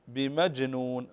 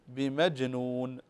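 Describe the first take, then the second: The two takes are said the same way.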